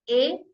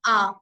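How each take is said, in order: First: The letter is said like 'ay'. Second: The letter is said like 'ah'. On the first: It is the English letter name. "हम इंग्लिश में ए ही" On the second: It is the German letter name. "But in German में हम इसको बोलते हैं आ"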